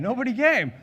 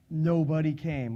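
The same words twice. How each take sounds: First: Higher, louder, stress on came; nobody CAME, pushed up and out; louder emphatic repeat. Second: Said in the usual way. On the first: Real, not acted. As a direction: hit it harder.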